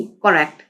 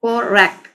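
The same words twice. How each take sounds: First: Said in the usual way. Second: "correct" split into cor and rect; syllable by syllable. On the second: Shown as a demonstration. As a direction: break "correct" into two distinct beats. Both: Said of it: "टू syllable ही हैं".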